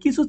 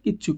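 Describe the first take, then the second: First: The middle consonant is said once, short. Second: The middle consonant is doubled and held longer. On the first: It is the ordinary form. "কিছু থেকে" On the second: It adds emphasis to the word. "হয়ে গেছে কিচ্ছু"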